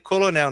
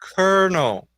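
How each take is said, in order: First: It is pronounced letter by letter, as written. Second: It is not pronounced the way it is written. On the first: This is how a first-time reader would say it. The speaker calls it wrong. "você vai ler colonel" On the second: This is the real pronunciation. The speaker calls it right. "a pronúncia dessa palavra é colonel"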